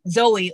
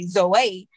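First: The name is said with an English pronunciation. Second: The name is said with a Greek pronunciation.

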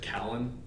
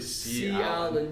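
First: The name is run together as one word. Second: The letter C is said before the name. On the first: The speaker calls it wrong. "People pronounce it Callan" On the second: The speaker calls it right. "But it's really C Allen"

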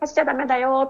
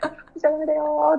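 First: It sounds like a plain, audible warning. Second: It sounds like cheering on a marathon runner.

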